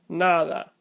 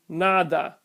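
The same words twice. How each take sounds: First: The d is a soft, partial closure. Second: The d is a full hard stop. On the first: The speaker calls it right. "But the correct pronunciation is" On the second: The speaker calls it wrong. "If I mispronounce these words with hard sounds"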